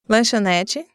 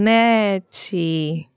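First: The word is said fast. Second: The word is said slowly.

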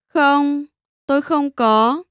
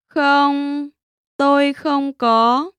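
First: It is said at normal speed. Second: It is said slowly.

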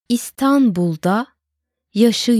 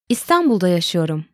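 First: It is said slowly. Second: It is said at natural speed.

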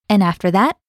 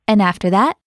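The two takes are said the same way.

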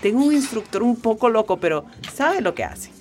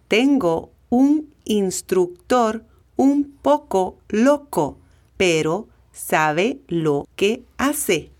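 First: It is said at normal conversational speed. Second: It is said slowly and deliberately.

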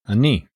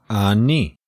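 First: The word is said fast. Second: The word is said slowly.

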